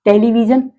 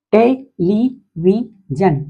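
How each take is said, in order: First: Said in the usual way. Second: television drawn out very slowly, te-le-vi-sion; teacher stretches television beat by beat; slow syllable split. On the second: Shown as a demonstration. Teacher to class, splitting television very slowly. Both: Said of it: "polysyllabic word".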